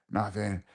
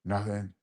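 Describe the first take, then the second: No difference in how they are said.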